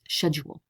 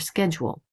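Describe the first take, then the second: First: It is said in a British way. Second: It is said in an American way.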